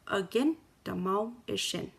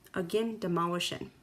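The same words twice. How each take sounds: First: It is said slowly. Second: It is said at normal speed.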